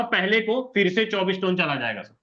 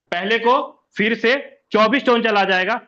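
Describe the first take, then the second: First: Said in the usual way. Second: Louder, each word pressed, stress on टोन; emphatic repeat. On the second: Shown as a demonstration. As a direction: hammer it home to the class, punch टोन.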